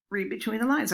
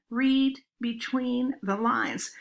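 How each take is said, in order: First: Reads the title flatly, not getting it; puzzled reading of the title. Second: Slow and emphatic, leaning on read; slow, pointed hint. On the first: Colleague reads a book title at a faculty meeting, puzzled. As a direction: say it like the words mean nothing yet. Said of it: "Mary Ann looked at the cover and said". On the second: Colleagues nudging Mary Ann toward the joke, slow and pointed. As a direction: spell it out slowly as a nudge. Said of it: "everybody else in the room was going". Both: Retold or imitated.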